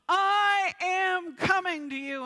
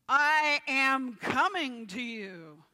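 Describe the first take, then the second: First: It is yelled at full volume. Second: It is said louder, with force.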